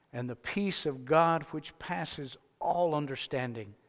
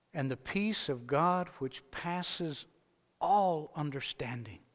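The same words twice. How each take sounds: Both takes have the same delivery.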